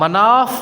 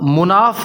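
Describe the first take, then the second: First: The vowel after the m is 'a'. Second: The vowel after the m is 'u'. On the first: It is the name of an idol. The speaker calls it wrong. "मीम पर ज़बर के साथ" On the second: It means one of high rank. The speaker calls it right. "मीम पर पेश के साथ"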